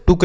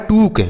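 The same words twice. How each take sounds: First: टुक with a short, quick u; wrong short u. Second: टूक with a long oo; correct long oo. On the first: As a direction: cut the vowel of टुक short. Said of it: "टुक नहीं होता बच्चों". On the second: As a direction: stretch the vowel of टूक. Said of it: "double O से बढ़ाऊ की मात्रा". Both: Shown as a demonstration.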